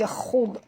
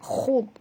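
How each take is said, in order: First: The kh and d sounds are thick and heavy. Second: The same.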